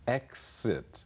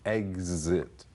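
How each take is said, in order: First: The x is voiceless, sounding like ks. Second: The x is voiced, sounding like gz. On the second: "z 的音"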